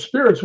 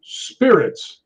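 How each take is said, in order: First: High, quick, disbelieving repeat; retold incredulous echo. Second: Drawn-out, slightly higher single-word reply; spirit box answer. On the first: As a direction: imitate her throwing the word back in surprise. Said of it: "She goes". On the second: Retold or imitated. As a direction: lightly imitate a spirit's announcement. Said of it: "And it goes".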